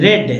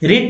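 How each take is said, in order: First: The vowel is short, like 'red'. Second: The vowel is long, like 'reed'. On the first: It is the past tense or past participle. "Past और पास्ट participle में रेड पढ़ेंगे" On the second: It is the present tense. "प्रेजेंट में रिड पढ़ेंगे"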